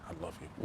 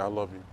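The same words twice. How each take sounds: First: It is said in a soft whisper. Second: It is said in a normal, caring voice. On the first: The speaker is expressing intimate romantic feeling. "you're whispering for her" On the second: The speaker is expressing care after an illness. "you say I love you. You know, like that"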